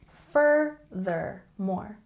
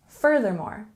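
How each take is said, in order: First: The word is said slowly and drawn out. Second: The word is said at a normal speed. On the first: "Nice and slow" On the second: "And regular speed"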